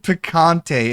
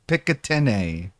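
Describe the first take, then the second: First: The word ends with an 'ante' sound. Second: The word ends with an 'atine' sound. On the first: The speaker calls it right. "This is picante" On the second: The speaker calls it wrong. "he thinks pic picatine"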